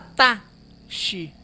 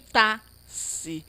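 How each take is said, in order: First: The x is said as an sh sound. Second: The x is said as an s sound. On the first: "Não fala tá, xi" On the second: "E nem tá, si"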